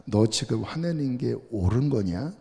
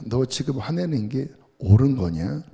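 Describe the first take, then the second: First: Kindly God. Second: Plain God. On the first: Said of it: "인자하게 말씀하십니다". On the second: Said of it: "담백하게 말씀하십니다". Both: Retold or imitated.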